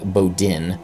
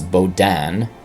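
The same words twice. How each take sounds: First: The name is said with an American pronunciation. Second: The name is said with a French pronunciation. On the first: "I think it's an American would, would say" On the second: "but I suspect it's"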